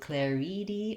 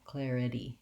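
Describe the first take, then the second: First: The last two vowels sound the same. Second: The last two vowels sound different. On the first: The speaker calls it wrong. "I don't want to do claridi or claride. The vowels need to not match" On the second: The speaker calls it right. "It has to clearly go from I to E"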